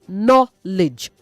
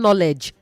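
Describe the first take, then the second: First: The last syllable sounds like 'lidge'. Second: The last syllable does not sound like 'lidge'. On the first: The speaker calls it right. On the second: The speaker calls it wrong. "not knowledge"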